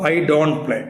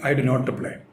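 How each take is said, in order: First: Do and not merge into one short syllable. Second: Do and not are said as two full words.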